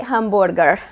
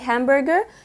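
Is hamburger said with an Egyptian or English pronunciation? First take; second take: Egyptian; English. First: The word is said the Egyptian Arabic way. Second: The word is said the English way. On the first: The speaker calls it right. "how Egyptians actually pronounce it" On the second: The speaker calls it wrong. "when you are talking in Arabic, you don't say hamburger"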